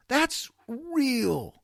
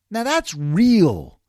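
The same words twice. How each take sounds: First: Higher and softer echo; higher soft repeat. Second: Slow, loud and weighty; slow emphatic. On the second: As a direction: land it slowly and firmly. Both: Shown as a demonstration.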